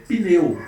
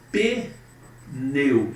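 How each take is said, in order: First: "pneu" run together as quick "pineu", no break; joined pronunciation. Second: "pneu" broken into a long "pê", pause, then "neu"; split pronunciation. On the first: Teacher correcting the split for students, joined pronunciation of "pneu". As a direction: say "pneu" in one go, short linking vowel after P. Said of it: "é pneu". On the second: Teacher showing students the wrong split, split pronunciation of "pneu". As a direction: say "pneu" as two separate pieces, pê... neu. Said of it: "não é pneu". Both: Shown as a demonstration.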